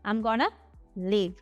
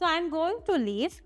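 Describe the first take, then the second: First: Going to is reduced to gonna. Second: Going to is said in full, unreduced. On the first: It is a more casual, slangy way to say it. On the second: It is the basic, neutral way to say it.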